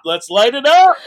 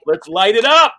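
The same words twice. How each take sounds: First: Louder and higher fired-up yell; even bigger, full hype shout. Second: Loud, fired-up rally cry; hyped-up cheer. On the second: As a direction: pump yourself up for the show. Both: Retold or imitated. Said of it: "I'm like".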